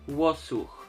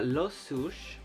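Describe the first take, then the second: First: The name begins with a W sound. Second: The name begins with an L sound. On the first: The speaker calls it right. "so it's pronounced wo" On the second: The speaker calls it wrong. "I probably pronounced that wrong because I don't know how that L is supposed to sound"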